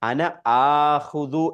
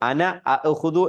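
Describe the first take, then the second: First: The verb starts with a long vowel and no stop. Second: The verb starts with a short vowel and glottal stop. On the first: "ആ എന്നാക്കി മാറ്റും" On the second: "രണ്ട് ഹംസ ഒന്ന് ഒരുമിച്ച് വന്നാൽ"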